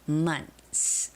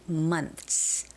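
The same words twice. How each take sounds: First: The th sound before the s is dropped. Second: The same.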